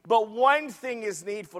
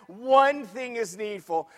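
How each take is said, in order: First: Said in the usual way. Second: "One" drawn out and weighted, the phrase slowed; slow down and lean on "One"; stress on ONE. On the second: Shown as a demonstration. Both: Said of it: "Did you see that?".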